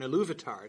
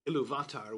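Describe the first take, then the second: First: The stress falls on the second syllable. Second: The stress falls on the third syllable. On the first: The speaker calls it right. "there's an accent on the U in Iluvatar to tell you that's the stress" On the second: The speaker calls it wrong. "normally it's the second to last syllable"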